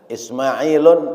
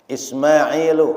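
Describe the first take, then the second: First: The name ends with an added n sound. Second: The name ends on a bare u vowel. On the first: The speaker calls it wrong. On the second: The speaker calls it right.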